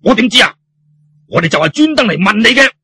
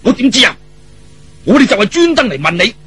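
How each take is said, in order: First: Higher, louder irritated snap; puffing, indignant retort; huffy retort. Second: Puffing, indignant retort; huffy retort. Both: Acted. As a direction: snap back, exasperated. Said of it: "呼呼氣氣噉話".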